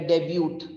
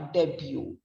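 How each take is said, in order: First: The final T is clearly sounded. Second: The final T is not sounded. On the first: The speaker calls it wrong. "it's not pronounced as a debut" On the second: The speaker calls it right. "here the T is absolutely silent"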